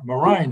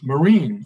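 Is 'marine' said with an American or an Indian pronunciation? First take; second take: Indian; American. First: It is said with an Indian pronunciation. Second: It is said with an American pronunciation. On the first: This is how the listeners normally say it. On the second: This is how the speaker normally says it.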